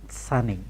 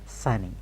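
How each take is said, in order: No difference in how they are said.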